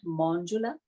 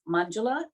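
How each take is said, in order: First: The first vowel sounds like 'aw'. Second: The first vowel sounds like 'ah'. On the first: The speaker calls it wrong. "not Monjula" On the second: The speaker calls it right. "My name is Manjula"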